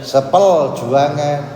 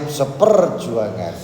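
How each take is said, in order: First: The middle sound is an l sound instead. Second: The middle sound is a clear r sound. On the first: The speaker has a speech impediment. The speaker calls it wrong. "Tapi kalau pelat" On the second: The speaker talks fluently. The speaker calls it right. "Coba umum fasih lah penak"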